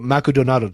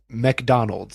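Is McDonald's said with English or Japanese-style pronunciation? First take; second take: Japanese-style; English. First: It is said with Japanese-style pronunciation. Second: It is said with English pronunciation. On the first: "But if I go Macudonado" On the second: "Where is McDonald's?"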